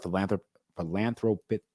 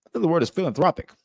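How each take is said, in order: First: Philanthropic tripped over, unsure of the syllables; stumbling pronunciation. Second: Philanthropic said fully and clearly, fil-an-THROP-ic; a brisk corrected philanthropic, pitched higher; correct pronunciation. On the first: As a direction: fumble the word philanthropic. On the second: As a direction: pin down philanthropic with a quick, sure correction. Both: Real, not acted.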